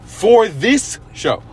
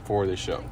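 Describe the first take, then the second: First: Slow, high, drawn-out "this"; stress on THIS. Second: Said in the usual way. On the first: Real, not acted. Qualifying praise of the villain, heavy stress on "this". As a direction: stretch each word and push "this" up in pitch. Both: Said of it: "I wanna emphasize that".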